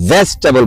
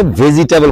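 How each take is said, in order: First: ভেজিটেবল in three syllables, "ves-ta-bal"; shortened "vestabal" for ভেজিটেবল; corrected pronunciation. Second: Said in the usual way. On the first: Shown as a demonstration. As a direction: say ভেজিটেবল as "VES-tabal", middle i dropped. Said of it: "ছোট্ট বন্ধু বললো যে এটাকে". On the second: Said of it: "ভেজিটেবল বলা যাবে না".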